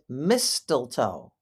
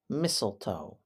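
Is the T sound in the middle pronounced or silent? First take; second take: pronounced; silent. First: The middle T sound is clearly pronounced. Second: The middle T sound is left silent. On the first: The speaker calls it wrong. "People sometimes pronounce it mistletoe, but that is not how it is pronounced" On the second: The speaker calls it right. "It is mistletoe"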